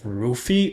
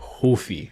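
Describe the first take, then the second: First: The name begins with a clear R sound. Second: The name begins with a breathy H-like sound.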